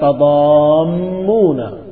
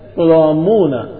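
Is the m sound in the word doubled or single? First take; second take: doubled; single. First: The m sound is doubled and held longer. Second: The m sound is single and light. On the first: "bukan tadammuna, bukan ditasdidkan di mim" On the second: "tetapi dengan enteng tadammuna"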